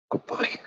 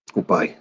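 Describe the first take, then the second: First: A high, soft, teasing "Goodbye"; mock sing-song goodbye. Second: Said in the usual way. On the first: Mock farewell to a troll.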